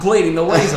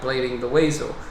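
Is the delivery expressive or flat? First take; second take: expressive; flat. First: It is delivered with lively, expressive inflection. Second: It is read slowly and flatly, without inflection. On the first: "I can put the extra inflection" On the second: "slow dyslexic reading voice"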